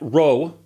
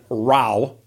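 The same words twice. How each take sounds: First: The vowel is a long O sound. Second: The vowel is not a long O sound. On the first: "row with a long O" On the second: "row with that sound"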